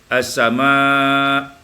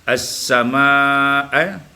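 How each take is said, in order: No difference in how they are said.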